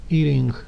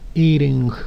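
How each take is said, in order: First: The t sounds like a soft, quick r-like tap. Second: The same.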